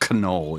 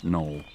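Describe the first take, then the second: First: The K at the start is pronounced. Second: The K at the start is silent. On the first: The speaker calls it wrong. "so it's not Knoll" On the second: The speaker calls it right. "The K is silent"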